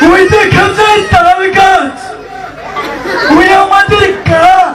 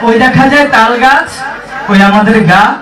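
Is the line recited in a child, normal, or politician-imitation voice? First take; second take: politician; normal. First: It is recited imitating a politician's speaking style. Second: It is recited in the speaker's ordinary voice. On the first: "সে কিভাবে আবৃত্তি করত আমি তার ওদেরকে শোনাচ্ছি।" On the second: "কবিতাটি হচ্ছে"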